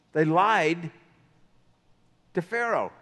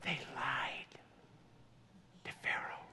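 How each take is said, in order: First: Said in the usual way. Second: Hushed, breathless whisper of a secret; dramatic whisper. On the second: Acted. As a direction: whisper it like a confession to the congregation. Preacher whispers the key point.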